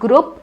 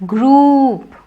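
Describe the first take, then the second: First: The vowel is short and clipped. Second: The vowel is long and stretched. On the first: The speaker calls it wrong. "It's not group" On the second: The speaker calls it right. "it is group"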